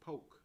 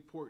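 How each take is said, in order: First: The word is said with no 'r' sound. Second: The word is said with a clear 'r' sound. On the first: "down here in the South, they say poke" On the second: "they don't say pork"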